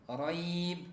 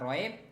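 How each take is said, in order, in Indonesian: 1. Bunyi ya dibaca dengan lembut. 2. Bunyi ya ditekan, bukan lembut. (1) "dibaca dengan lembut" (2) "bukan raib"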